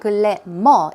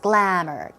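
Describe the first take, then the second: First: The word is said with more than two syllables. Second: The word is said with exactly two syllables. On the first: The speaker calls it wrong. "It's not glamour" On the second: The speaker calls it right. "it's glamour, glamour. Two syllables"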